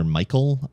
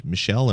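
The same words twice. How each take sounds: First: Michael said as MY-kul; English pronunciation. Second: Michel said as mee-SHELL; French-style pronunciation. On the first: Host offering another guess at the last name, Michael said MY-kul. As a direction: stress the first syllable of Michael, with a k sound. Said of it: "could go either way". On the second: Host guessing at a listener's last name, Michel said mee-SHELL. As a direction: stress the second syllable of Michel, with a sh sound. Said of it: "don't know how to pronounce your last name". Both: Shown as a demonstration.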